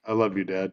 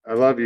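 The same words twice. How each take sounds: First: Embarrassed son mumbling it back to his dad; reluctant mumble. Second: Said in the usual way. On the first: Retold or imitated. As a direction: lower and softer, giving in grudgingly. Kid reluctantly gives in to dad.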